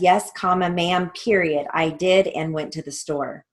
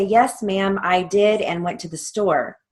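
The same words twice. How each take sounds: First: "comma" and "period" spoken as words, with a short pause around each; dictating the punctuation. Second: Said in the usual way. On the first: Shown as a demonstration. Teacher reads the transcript line to students, dictating each mark. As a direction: read it out the way the court reporter will type it. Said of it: "we would write that as". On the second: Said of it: "if she were to say".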